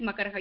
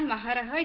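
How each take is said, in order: First: The second syllable starts with a k sound. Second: The second syllable starts with an h sound. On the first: The speaker calls it right. "it's Makaraha" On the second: The speaker calls it wrong. "It's not Maharaha"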